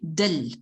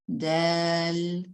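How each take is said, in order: First: The vowel is cut short. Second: The vowel is held long. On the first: The speaker calls it wrong. "Don't say it short" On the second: The speaker calls it right. "Relax in the middle"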